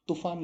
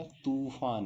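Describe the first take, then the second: First: तूफान with a short u in तू; higher तूफान with clipped तू; short vowel. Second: तूफान with a long oo in तू; long vowel. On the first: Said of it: "तो तूफान नहीं होता". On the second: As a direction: slowly stretch the तू of तूफान. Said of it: "तूफान होता है". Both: Shown as a demonstration.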